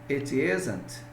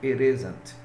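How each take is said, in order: First: The t in 'it' is a clear t. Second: The t in 'it' sounds like a quick r. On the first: "em vez de eu falar" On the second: "eu mudo essa pronúncia de t, de t para r, como fosse um r"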